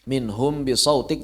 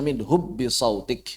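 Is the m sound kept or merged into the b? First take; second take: kept; merged. First: The m is kept, hidden before the b. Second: The m merges fully into a doubled b. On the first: The speaker calls it right. "ikhfa jangan dibaca seperti idgham" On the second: The speaker calls it wrong. "jangan dibaca"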